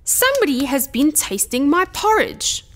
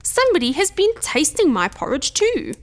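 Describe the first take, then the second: First: Lightly voiced gruff bear, pitched up in indignation; a touch of big-bear growl, higher than narration; mildly growled complaint. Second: Lightly voiced gentle Mother Bear, higher pitch; a touch of gentleness, lilting high; mildly dismayed, gentle mother bear; soft gentle voice. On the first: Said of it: "growled in his big gruff voice". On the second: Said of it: "said Mother Bear in her soft, gentle voice". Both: A narrator's reading.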